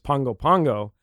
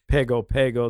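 First: The middle consonant is a nasal ng sound. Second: The middle consonant is a plain g sound. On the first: The speaker calls it right. "The correct pronunciation is Pongo Pongo" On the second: The speaker calls it wrong. "it's not really Pago Pago"

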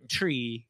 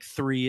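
First: The word starts with a plain 't' sound. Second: The word starts with a 'th' sound. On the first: This is how the accent says it. "It's like tree" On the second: This is not how the accent says it. "it's not like three"

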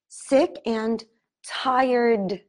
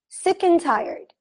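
First: It is said slowly, with a full 'and'. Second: It is said fast, with 'and' as 'n'.

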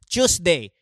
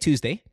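First: It is said with a Filipino accent. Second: It is said with an American-leaning accent. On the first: "When we put our accent to it, it's such a turn off" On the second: "We would say Tuesday"

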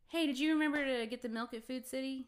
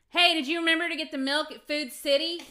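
First: The question is asked at normal loudness. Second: The question is asked at raised loudness. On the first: This is the first time the question is asked. "I'll say something in a normal tone of voice" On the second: The question is repeated because it was not heard. "And I'll like raise my voice like he's deaf"

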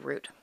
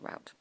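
First: The vowel sounds like the one in boot. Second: The vowel sounds like the one in out. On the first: "I never say root" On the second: "that's the only Hoosier word I say is route"

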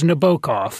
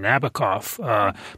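First: The name is said the original Russian way. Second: The name is said the common American way. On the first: This is how the writer's name really went. The speaker calls it right. "but it was Nabokov" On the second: This is how most English speakers say it. The speaker calls it wrong. "Most Americans, a lot of English people, anybody who's listened to the Sting song say Nabokov"

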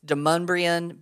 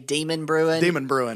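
First: The name ends in a sound like mum-bree-un. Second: The name sounds like the words demon brewing. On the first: The speaker calls it right. "it's Demumbrian" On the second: The speaker calls it wrong. "if you say Demon Brewing, you know you're not from around these parts"

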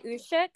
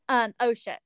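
First: The word begins with a U sound. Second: The word begins with an O sound.

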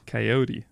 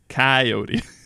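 First: The stress is on the middle syllable. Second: The stress is not on the middle syllable. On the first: "I put the emphasis on the middle syllable of coyote" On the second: "And you say coyote"

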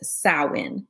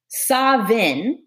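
First: It is said the Irish Gaelic way. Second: It is said the Scottish Gaelic way. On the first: "So Irish Gaelic says Samhain" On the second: "Samhain is the Scottish, the ancient Scottish Gaelic version of this"

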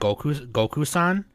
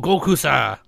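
First: The name ends with a full n sound. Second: The name drops its final n sound. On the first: "will call him Goku-san" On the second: "They won't say the end part"

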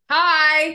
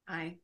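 First: It is said with more energy. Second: It is said with little energy.

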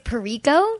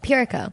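First: The stress is not on the first syllable. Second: The stress is on the first syllable. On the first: The speaker calls it wrong. "when people don't know how to pronounce it, because they say, they think it's Pirico" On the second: The speaker calls it right. "It's like the same stress in the first syllable as Unico"

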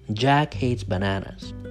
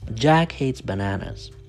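First: The stress falls on Jack and bananas. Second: The stress falls on Jack and bananas.

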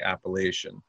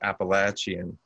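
First: It is said the Northern way. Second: It is said the Southern way.

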